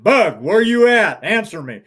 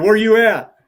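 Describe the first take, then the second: First: Higher, louder and slow stern call; a father's stern shout down the canyon; sternly. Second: Louder, higher call across the canyon; shouting to a child out of sight. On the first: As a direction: call her again, harder and slower. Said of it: "even more sternly". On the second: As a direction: call out to find where she is. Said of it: "I called to her". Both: Retold or imitated.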